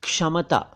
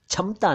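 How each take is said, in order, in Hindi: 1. पहली ध्वनि साफ़ 'ksh' संयुक्ताक्षर है। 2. पहली ध्वनि साफ़ 'ksh' संयुक्ताक्षर नहीं है। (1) "आपको कहना चाहिए क्षमता" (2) "क्षमता नहीं"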